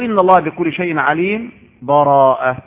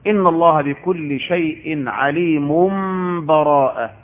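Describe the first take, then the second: First: There is a brief stop without breath before the last word. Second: The words run on without any break. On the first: A brief separation marks the two chapters. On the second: The two chapters are recited as joined.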